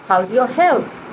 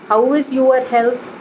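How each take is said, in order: First: How and is merge into one syllable. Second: How and is are said as separate words. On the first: The speaker calls it right. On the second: The speaker calls it wrong.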